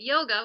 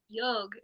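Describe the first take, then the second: First: The word ends with a final vowel sound. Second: The word ends on a consonant, without final vowel. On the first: Western speakers adapted it to match the spelling. "more like phonetic based on how it's written" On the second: This is the original pronunciation used in India. "that's the correct pronunciation of it"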